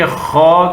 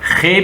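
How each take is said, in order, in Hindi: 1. अक्षर का नाम भारी बोला जाता है, गोल स्वर के साथ। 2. अक्षर का नाम हल्का बोला जाता है, आगे के स्वर के साथ। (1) "बल्कि खौ करके मोटा अदा करे" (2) "खे भी न पढ़े"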